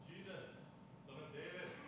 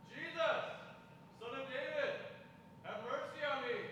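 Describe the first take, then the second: First: It is said too quietly for a crowd. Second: It is shouted loudly over a crowd.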